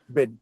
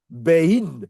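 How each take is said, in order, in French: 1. La voyelle est un e simple et bref. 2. La voyelle glisse vers un son i. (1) "tu dis Ben" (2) "Tu ne dis pas Bein"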